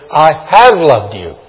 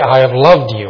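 First: The stress is on the word have. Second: The stress is on the word loved. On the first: The love was in the past and continues. "Past tense, and I continue to love you" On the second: The listener is cherished. "I cherish you"

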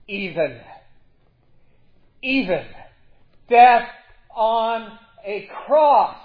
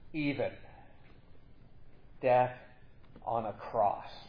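First: The phrase is shouted loudly. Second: The phrase is said at normal volume. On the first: "Or we could read it with shouting" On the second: "We can say"

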